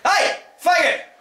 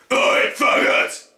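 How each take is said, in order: First: Very high, slow, loud shout; yell across street. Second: A slow, low, rasping yell with no pitch; low growled yell. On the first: Teacher demonstrating a high yell across the street. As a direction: call out to someone across a busy street. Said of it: "imagine you're standing this side of the street". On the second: Teacher showing the lowered growl version of the yell. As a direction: growl it out from the gut. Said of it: "try it with lowering your voice". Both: Shown as a demonstration.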